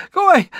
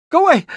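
First: High panicky "GO away"; panicked high shooing. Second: Frightened high "away"; panicked high shooing. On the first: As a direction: stress on go, higher. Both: Acted.

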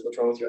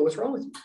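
First: Low-pitched imitation of a doctor; hint of on-call doctor. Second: Slightly higher, questioning imitation; hint of hospital staff. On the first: On-call doctor questioning the patient, low imitated voice. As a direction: drop the pitch to play the doctor. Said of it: "the doc on call says". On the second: Staff coming in to the patient, lightly imitated questioning. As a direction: lightly voice the staff, pitch lifted. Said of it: "they go".

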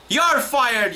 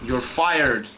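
First: Higher-pitched, exasperated outburst; angry firing. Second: Said in the usual way. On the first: Real, not acted. Gamer firing the stupid game, angry and indignant. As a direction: declare it with indignant force.

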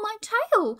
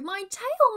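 First: Higher, louder wail, building panic; louder panicked cry. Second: High, loud wail of pain; panicked cry. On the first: Roo panicking harder about his tail, higher wail. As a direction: push the panic up a notch. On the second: Roo panicking about his pinned tail, high wail. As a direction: cry out for your hurt tail. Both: Acted. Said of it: "screamed Roo".

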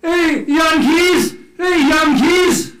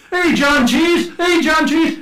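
First: Put-on high, loud holler in a Dutch accent; slow taunting call, mock Dutch accent. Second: High, loud, slow taunting holler; teasing street call, pitched way up; mock shouting. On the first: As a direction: shout it across with Dutch vowels. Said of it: "they said it in their Dutch accent". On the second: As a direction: throw the nickname back at them loudly. Dutch shouting nickname at the English.

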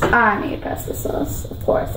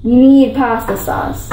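First: Whispered repeat to herself; whispered aside. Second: Said in the usual way. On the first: Real, not acted. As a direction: whisper it to yourself.

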